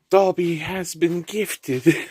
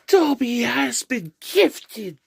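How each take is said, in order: First: It is said in the speaker's normal voice. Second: It is said in a put-on character voice.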